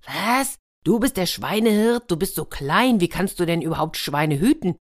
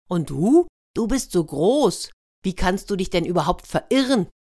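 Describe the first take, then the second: First: Ruler's incredulous, raised-pitch question; astonished disbelief. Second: Cheeky retort. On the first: Ruler astonished at tiny swineherd. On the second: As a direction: throw the taunt back, louder on the opening. Hedgehog throws the question back. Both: Acted.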